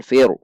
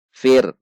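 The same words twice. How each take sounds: First: "fir" released into an extra vowel, fi-ru; wrong reading. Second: "fir" closed on a thin r; correct thin ra. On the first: Teacher showing the mistake, "fir" with bounced r. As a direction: add a small u after the r of "fir". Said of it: "Bukan fir". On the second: Teacher showing the correct reading, "fir" thin and closed. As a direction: stop "fir" on the r with no trailing vowel. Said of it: "maka dibaca tipis". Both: Shown as a demonstration.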